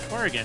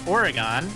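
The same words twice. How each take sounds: First: It uses the pronunciation locals use. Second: It uses the common outsider pronunciation. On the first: The speaker calls it right. "people native to the state actually pronounce it like you do" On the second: The speaker calls it wrong. "oftentimes it's mispronounced as Oregon"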